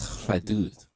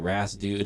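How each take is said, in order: First: The name has a French-like pronunciation. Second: The name has an English-like, anglicized pronunciation. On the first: The speaker calls it right. "the proper way to say it is Khadood" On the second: The speaker calls it wrong. "Some fuck people say Ras Dude if you're uncultured"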